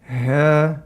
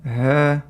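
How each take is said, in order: First: The h has too little breath. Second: The h has too little breath.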